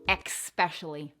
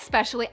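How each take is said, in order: First: It begins with an 'ex' sound. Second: It begins with an 'es' sound. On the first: The speaker calls it wrong. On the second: The speaker calls it right.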